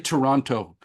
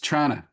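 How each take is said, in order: First: It is said the visitor way, fully pronounced. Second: It is said the local, clipped way, like 'Tranna'.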